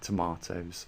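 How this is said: It is said with a British accent.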